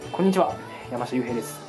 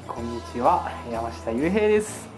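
First: The greeting sounds cool and detached. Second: The greeting sounds calm and drawn out. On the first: "ちょっとクールに" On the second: "絶対落ち着いてみようと思って"

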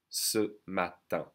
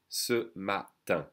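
The two takes are said the same way.

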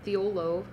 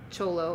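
First: The name begins with a 'th' sound. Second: The name begins with a 'ch' sound. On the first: This is how the spelling looks. The speaker calls it wrong. "Thiolo is what it looks like" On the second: This is how the local language says it. The speaker calls it right.

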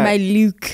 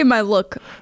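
First: Look has a stretched, fancy vowel. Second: Look has its ordinary short vowel. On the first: It sounds more high fashion. "I pronounce it like L-E-U-K" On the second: This is the everyday way to say it. "Most people say my look"

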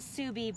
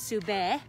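First: The name is said in an Anglicized way. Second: The name is said in a Mongolian way. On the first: This is how the zoo staff say the name. "So we pronounce it Subi" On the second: This is how native Mongolian speakers say the name. "it would actually be pronounced Sube"

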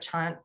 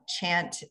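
First: The vowel is said the New Zealand way. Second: The vowel is said the American way. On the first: "like the more New Zealand pronunciation" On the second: "using the ah chant"

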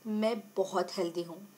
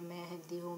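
First: It is said in an excited, confident tone. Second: It is said in a calm, meditative tone.

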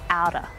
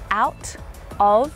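First: The two words are blended into one reduced word. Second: The two words are said separately and clearly. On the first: "when spoken naturally, you'll hear outer" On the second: "if they're pronounced really clearly, you can hear all of those words"

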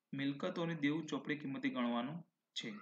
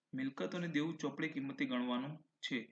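No difference in how they are said.

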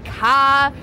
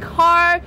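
First: The R sound at the end is dropped. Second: The R sound at the end is pronounced. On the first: "the local Bostonian accent not to pronounce your R's" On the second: "instead of saying car"

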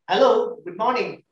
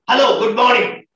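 First: It sounds happy and soft. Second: It sounds angry and harsh.

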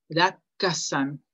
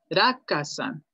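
First: The k sound is held long and doubled. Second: The k sound is short and single. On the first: "La pequeña tsu hace que la siguiente consonante se pronuncie doble" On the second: "Esto es ra ka san"

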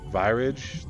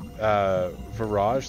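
First: The first syllable sounds like the start of virus. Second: The first syllable sounds like the start of mirage. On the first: "like virus" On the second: "like mirage"

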